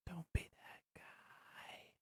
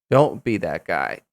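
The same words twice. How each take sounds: First: Whisper. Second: Said in the usual way. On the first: Pretend. Testing voice effects.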